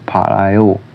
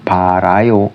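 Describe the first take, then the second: First: The middle consonant is a long l sound. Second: The middle consonant is a single r sound. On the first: The speaker calls it right. "tapi palayo" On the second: The speaker calls it wrong. "bukan parayo"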